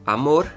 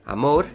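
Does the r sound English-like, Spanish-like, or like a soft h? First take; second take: Spanish-like; Spanish-like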